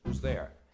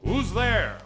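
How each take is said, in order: First: It is asked plainly as a routine question. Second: It is bellowed loudly and confidently.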